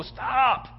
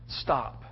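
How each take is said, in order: First: High, drawn-out cry of alarm; acted high-pitched urgent command; urgent halting cry. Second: Low, soft, grave halt; subdued low-voiced command; hushed command. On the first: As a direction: call a sudden halt from afar, pitched high. Angel halts the knife, first take. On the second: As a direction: say it quietly after the cry. Same command repeated, hushed.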